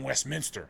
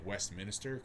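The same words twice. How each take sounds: First: It has no extra syllable: West-min-ster. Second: It has an extra syllable: West-min-is-ter. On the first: The speaker calls it right. "it's fucking Westminster" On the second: The speaker calls it wrong. "I just assumed that there was an extra I in there"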